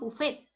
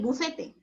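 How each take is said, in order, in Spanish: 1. La palabra se dice con dos sílabas. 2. La palabra se dice con tres sílabas. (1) "lo pronunciamos buffet" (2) "si lo quieres pronunciar correctamente"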